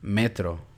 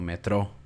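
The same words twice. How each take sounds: First: The stress is on the first syllable. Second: The stress is on the last syllable. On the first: The speaker calls it right. "la sílaba tónica cae en la penúltima sílaba" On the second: The speaker calls it wrong.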